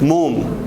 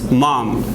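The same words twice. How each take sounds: First: The vowel is a rounded o sound. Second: The vowel is an open ah sound. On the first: The speaker calls it wrong. "If we do not know phonetic, we needed to pronounce" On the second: The speaker calls it right. "like this"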